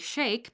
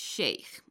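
First: The word ends in a plain k sound. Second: The word ends in a throaty kh sound. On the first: The word follows the English dictionary form. "It's not wrong to say Sheikh" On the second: The word keeps its original Farsi and Arabic form. "we pronounce it like its original form, that is Sheikh"

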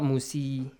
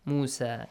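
First: The word ends with an 'ee' vowel. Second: The word ends with an 'ah' vowel. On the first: The speaker calls it wrong. "No, it's not Musi" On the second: The speaker calls it right. "alif maqsura is pronounced as a sound"

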